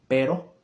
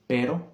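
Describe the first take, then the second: Both takes have the same delivery.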